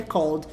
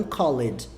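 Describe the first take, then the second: First: "called" in one syllable; one-beat "called" ending in LD; correct pronunciation. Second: "called" as two syllables, "call-ed"; wrong pronunciation. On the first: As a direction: say "called" with the E silent. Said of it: "confia em mim que é called". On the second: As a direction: sound the E in "called" by mistake. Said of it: "e não called". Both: Shown as a demonstration.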